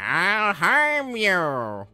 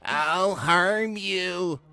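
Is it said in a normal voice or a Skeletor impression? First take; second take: Skeletor impression; normal voice. First: It is said in a Skeletor impression voice. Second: It is said in his normal voice.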